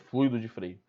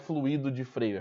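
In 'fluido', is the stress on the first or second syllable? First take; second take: first; second. First: The stress falls on 'flu' of fluido. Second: The stress falls on the 'i' of fluido. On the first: The speaker calls it right. "o correto é fluido, sem o acento" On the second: The speaker calls it wrong. "não é fluido de freio"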